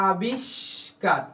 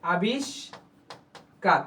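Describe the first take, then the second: First: আবিষ্কার stretched very slowly; slow pronunciation demo. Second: আবিষ্কার drawn out even slower, falling; slow pronunciation demo. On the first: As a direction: say আবিষ্কার slowly, each sound clear. (ধীরে টেনে আবিষ্কার) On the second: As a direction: repeat আবিষ্কার very slowly. (আরও ধীরে আবিষ্কার) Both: Shown as a demonstration. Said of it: "এরকম কি?".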